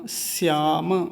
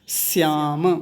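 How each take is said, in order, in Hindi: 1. यह शब्द दंत्य s ध्वनि से शुरू होता है। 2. यह शब्द दंत्य s ध्वनि से शुरू होता है।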